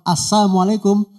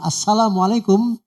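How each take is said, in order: First: The 'l' sound in 'salam' is dropped. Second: The 'l' sound in 'salam' is pronounced. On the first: A wish for death on the listener. "semoga kematian atas kamu" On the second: A wish for peace on the listener. "semoga keselamatan atas kamu"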